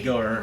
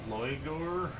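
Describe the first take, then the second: First: The name begins with a Y sound. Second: The name begins with an L sound.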